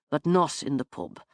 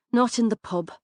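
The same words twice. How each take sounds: First: Lower, settled man's voice shutting it down; firm male refusal. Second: Woman echoing him. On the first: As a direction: close the matter calmly as the man. Finn firmly closes the topic. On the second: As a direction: throw his words back at him. Branagh echoes Finn's words back. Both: Acted.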